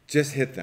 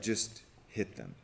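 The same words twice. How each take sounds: First: Just hit them said higher and louder, with weight on just; just stressed, louder and higher; repeated for punch. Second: Said in the usual way. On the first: Shown as a demonstration. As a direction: hammer home the punchline.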